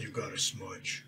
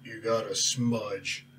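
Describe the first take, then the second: First: Slow, hushed naming of spell; spell name, said softly. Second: Slow, soft spell chant; spell incantation. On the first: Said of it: "it's called". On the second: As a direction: intone the spell name quietly. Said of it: "it's called "You Got a Smudge". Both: Acted.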